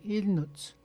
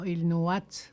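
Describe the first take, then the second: First: No vowel is sounded before the final t. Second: An extra vowel is sounded before the final t. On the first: The speaker calls it right. "on dit il noute" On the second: The speaker calls it wrong. "On dit pas il nouat"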